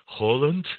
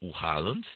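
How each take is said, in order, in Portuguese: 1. O nome é pronunciado do jeito nativo norueguês. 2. O nome é pronunciado do jeito habitual português.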